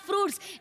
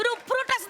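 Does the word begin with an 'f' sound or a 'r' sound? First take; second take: f; r. First: The word is said as 'fruits' with an f cluster. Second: The word is said as 'ruprut' with extra syllables. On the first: The speaker calls it right. "फ्रुट्स म्हणतात त्याला" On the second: The speaker calls it wrong. "एकतर ना ते रुपरूटच नाहीये"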